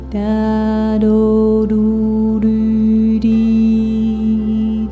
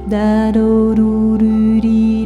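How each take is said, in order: First: The syllables are spoken a little faster. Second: The syllables are spoken at a quick pace. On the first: "Noem ietsje sneller"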